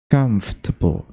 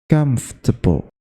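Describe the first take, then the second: First: The word is said with three syllables. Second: The word is said with three syllables.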